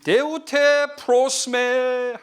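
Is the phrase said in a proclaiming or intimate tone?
proclaiming. It is said in a loud, proclaiming tone. It is addressed to a crowd. "사람들 앞에 얘기하셨으면"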